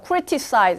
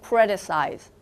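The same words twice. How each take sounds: First: The T is pronounced crisp and separate. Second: The T is softened and smoothly linked. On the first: The speaker calls it wrong. "criticize 이렇게 안 되고" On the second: The speaker calls it right. "부드럽게 이어서 발음을 하느라"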